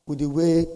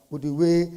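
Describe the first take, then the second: No difference in how they are said.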